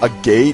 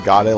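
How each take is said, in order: First: It sounds like the two words 'a gate'. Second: It sounds like a single word, 'agade'. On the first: The speaker calls it wrong. "Some people call it a gate" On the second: The speaker calls it right. "some people call it agade like I do"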